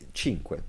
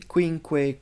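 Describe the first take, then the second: First: The word begins with a ch sound. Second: The word begins with a kw sound. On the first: The speaker calls it right. "That's how you say cinque" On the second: The speaker calls it wrong. "I've heard students say quinque"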